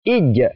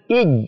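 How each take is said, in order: First: The final consonant is released with a slight bounce. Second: The final consonant is pressed and held. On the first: The speaker calls it right. "ada pantulannya sedikit" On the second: The speaker calls it wrong. "Tidak boleh ditekan"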